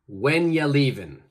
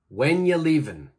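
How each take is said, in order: First: 'Are you' blends together and the final G drops. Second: 'Are you' blends together and the final G drops.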